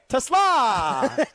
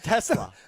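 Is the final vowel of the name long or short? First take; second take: long; short. First: The final vowel is drawn out and stressed. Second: The final vowel is short and plain. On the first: The speaker calls it right. "There's two A's. Gotta emphasize it" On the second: The speaker calls it wrong. "not Tesla"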